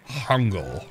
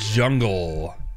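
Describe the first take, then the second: First: The word begins with a soft H-like sound. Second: The word begins with a hard J sound.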